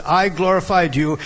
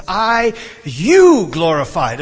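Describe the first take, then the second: First: Said in the usual way. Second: "I, you glorified" slow and loud, YOU soaring high; strong stress on YOU. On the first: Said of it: "the normal order would have been". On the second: Shown as a demonstration. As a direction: swell on "you" and stretch it out. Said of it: "he wants to emphasize".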